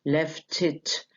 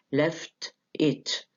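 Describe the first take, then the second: First: "Left it" joined as "lef-tit"; linked as one word. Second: "left it" slowly as two words, T sounded; words separate, T kept. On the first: Teacher showing students the linking, words joined. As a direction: carry the T of "Left" onto "it". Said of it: "بيتلضموا في بعض ويبقوا left it زي كلمة واحدة". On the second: Teacher giving an example of no elision, words separate. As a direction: keep "left" and "it" apart. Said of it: "there is no elision". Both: Shown as a demonstration.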